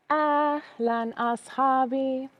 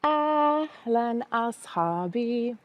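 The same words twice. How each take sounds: The two takes are said the same way.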